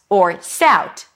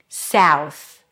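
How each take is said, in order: First: The word ends with a T sound. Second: The word ends with a TH sound. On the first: The speaker calls it wrong. "just a T" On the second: The speaker calls it right. "Close it with a TH"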